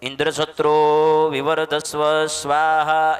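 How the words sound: Indra is short; satro vivardhasva is drawn out. May a son be born who kills Indra. The speaker calls it right. "Indra છે શબ્દ ટૂંકમાં બોલવાનું છે અને સત્રો વિવર્ધસ્વ એને લંબાવવાનું છે"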